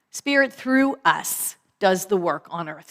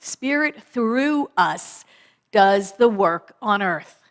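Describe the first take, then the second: First: Said in the usual way. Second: Slow emphatic repeat. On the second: Shown as a demonstration.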